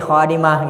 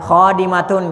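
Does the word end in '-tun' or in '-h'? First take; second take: -h; -tun. First: The word ends softly with an '-h' sound. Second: The word ends with a full '-tun' ending.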